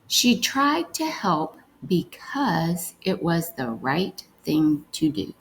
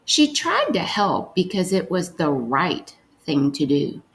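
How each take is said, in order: First: Carefully slowed reread of the sentence; slow reading. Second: Said in the usual way. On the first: Shown as a demonstration. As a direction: read it again a little slower. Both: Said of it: "let's read".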